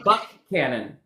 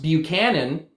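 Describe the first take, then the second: First: The name begins with a 'buck' sound. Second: The name begins with a 'byoo' sound. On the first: The speaker calls it right. "but it's Buckhannon" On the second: The speaker calls it wrong. "would look like it'd be pronounced Buchanan"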